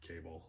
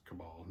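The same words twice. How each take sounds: First: "Cable" said as the English word, KAY-bul; wrong pronunciation. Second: "Cabal" said with stress on the second syllable, ca-BAL; right pronunciation. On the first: Contrasting the wrong title pronunciation, "Cable" as KAY-bul. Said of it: "not Cable". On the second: Explaining the book title to viewers, "Cabal" as ca-BAL. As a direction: say "Cabal" as ca-BAL, rhyming with pal. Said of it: "I'm assuming it's pronounced Cabal". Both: Shown as a demonstration.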